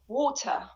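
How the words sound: It is said with a British accent. "I have just pronounced them in British accent. ... I said water"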